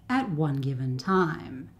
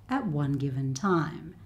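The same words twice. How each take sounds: The two takes are said the same way.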